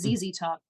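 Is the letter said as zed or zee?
zee. The letter is said the American way, zee.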